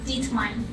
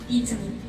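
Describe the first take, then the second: First: The last syllable sounds like mine. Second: The last syllable does not sound like mine. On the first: The speaker calls it wrong. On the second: The speaker calls it right.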